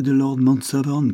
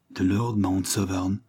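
First: Said in the usual way. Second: Slow, quavering repeat of the name; a touch of a quaver, slowed right down. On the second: A narrator's reading. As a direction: let the name tremble out slowly in shock. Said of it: "d'une voix chevrotante".

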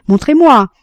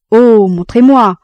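First: Louder, higher mock plea; a pleading echo, hammed up; feigned despair. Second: Loud, slow mock plea; hammed-up begging to be shown; feigned despair. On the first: Jean begs her to show him again, loud mock plea. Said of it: "disait-il". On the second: Jean feigns helplessness to get close, loud mock plea. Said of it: "simulait un grand désespoir". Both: A narrator's reading.

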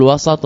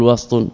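First: وسط as "wasat", with an a after the s; وسط with a vowelled seen; open middle vowel. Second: وسط as "wast", no vowel after the s; وسط with a vowelless seen; silent middle consonant. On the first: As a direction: say وسط in two syllables, wa-sat. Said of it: "يعني بفتح السين". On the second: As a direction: say وسط with s running straight into t. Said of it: "ووسط بالسكون". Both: Shown as a demonstration.

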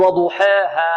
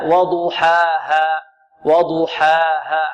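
First: وضحاها with alifs bent toward e, "duheehe"; wrong imala. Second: وضحاها drawn out with pure open "aa"; correct open alif. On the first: Teacher shows students the mistake to avoid, tilted vowels. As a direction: tilt the long a of وضحاها toward "eh". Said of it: "نحترز من إمالة الألف". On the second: Teacher corrects the mistake for students, slow open vowels. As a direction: recite وضحاها very slowly, no tilt toward "eh". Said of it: "لا". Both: Shown as a demonstration.

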